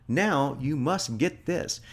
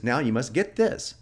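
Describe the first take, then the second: First: "Now you must get this" drawn out slowly, "now" stressed; slow it right down and lean on "now"; deliberate, drawn-out command; slow emphatic read. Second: Said in the usual way. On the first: Shown as a demonstration. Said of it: "Now, check that out". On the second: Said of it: "And the phrase is".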